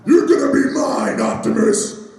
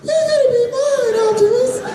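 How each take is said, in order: First: The voice sounds fresh, deep and rough. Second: The voice sounds worn out and strained.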